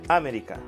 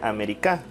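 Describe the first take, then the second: First: The stress is on the first syllable. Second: The stress is on the fourth syllable. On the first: "Si fuera en A" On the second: "Y si fuera en K"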